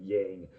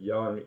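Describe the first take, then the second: First: It is said with an English-style sound. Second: It is said closer to the Chinese sound. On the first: The speaker calls it wrong. "than yang" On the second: The speaker calls it right. "definitely m- much more appropriate"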